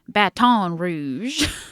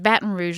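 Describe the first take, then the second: First: It is said with a British-sounding accent. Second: It is said with a local American accent.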